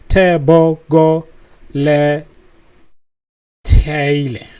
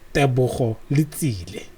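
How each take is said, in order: First: The surname is said with a plain t sound. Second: The surname is said with a ts sound. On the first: This is how others mistakenly say the name. The speaker calls it wrong. "if you hear people say" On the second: This is the name's real pronunciation. The speaker calls it right. "his name is Tebogo"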